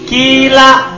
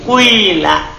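First: The first vowel is a pure i sound. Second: The first vowel blends a u into i. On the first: "Boleh ikhlas kasro" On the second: "Boleh tidak ikhlas"

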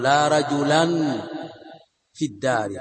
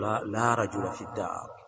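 First: The noun ends with an added n sound. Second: The noun ends without any added n sound. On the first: The speaker calls it wrong. "فلا تقول" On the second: The speaker calls it right. "بل تقول"

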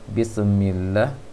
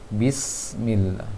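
First: The s sound is released abruptly and bounces. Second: The s sound flows with continuous air. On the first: The speaker calls it wrong. "Terlalu cepat barangkali melepaskan sinnya sehingga terpantulkan" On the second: The speaker calls it right. "hati-hati untuk sin jangan dibanturkan, dialirkan anginnya"

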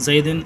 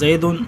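First: The word ends with the vowel i plus n. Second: The word ends with the vowel u plus n. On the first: The noun is in the genitive case. "تیسری مثال زیدن میں کسرہ ہے" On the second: The noun is in the nominative case. "پہلے مثال میں زیدن میں ضمہ ہے"

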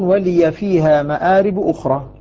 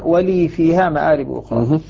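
First: The 'y' in 'wa-liy' carries an 'a' vowel. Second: The 'y' in 'wa-liy' carries no vowel. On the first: This is the reading of two of the reciters. "ورش وحفص يفتحون" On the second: This is the reading of the remaining reciters. "وباقي القراء يسكنون"

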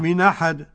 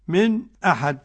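First: The glottal stop is dropped, linking into 'ahad'. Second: A brief silent break comes before the glottal stop. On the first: "نقل" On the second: "سكت"

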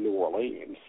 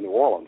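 First: The name is said the outsider's way. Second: The name is said the local Louisiana way. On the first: The speaker is an outsider. The speaker calls it wrong. "They don't say New Orleans" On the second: The speaker is from the region. The speaker calls it right. "people in Louisiana, even where I'm from, they say New Orleans"

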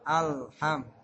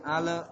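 First: The L is held still with no added vowel. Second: The L bounces with an added vowel after it. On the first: The speaker calls it right. "tapi alham" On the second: The speaker calls it wrong. "jangan ale"

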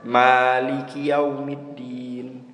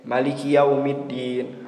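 First: The first vowel of Maliki is drawn out long. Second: The first vowel of Maliki is kept short. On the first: "Rakaat pertama ana baca panjang" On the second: "Rakaat kedua ana baca pendek"

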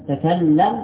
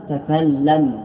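No difference in how they are said.

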